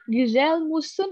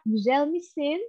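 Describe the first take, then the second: First: The second word has rounded u vowels. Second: The second word has unrounded i vowels. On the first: The speaker calls it wrong. "Ribet nggak tuh bibir kira-kira?" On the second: The speaker calls it right. "lebih enak Giselle misin"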